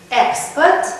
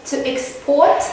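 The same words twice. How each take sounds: First: Export stressed on the first syllable, EX-port; noun stress. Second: Export stressed on the second syllable, ex-PORT; verb stress. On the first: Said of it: "and then we have affix". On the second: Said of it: "the second syllable is stressed". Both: Shown as a demonstration.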